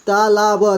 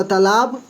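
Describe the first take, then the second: First: तालाब broken into ता, ला, ब; syllable by syllable. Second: Said in the usual way. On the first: Shown as a demonstration. Teacher sounding out a word, तालाब syllable by syllable. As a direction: give each sound of तालाब its own beat.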